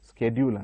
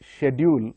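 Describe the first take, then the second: First: The word is pronounced the American way. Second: The word is pronounced the British way. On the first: "American ఇంగ్లీష్లో స్కెడ్యూల్ అంటాడు" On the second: "British ఇంగ్లీష్లో అది షెడ్యూల్ అంటారు"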